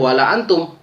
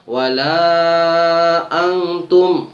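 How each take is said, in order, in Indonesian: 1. Vokal pada 'la' dibaca pendek. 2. Vokal pada 'la' dibaca panjang. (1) "nggak boleh" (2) "wajib empat harokat panjang"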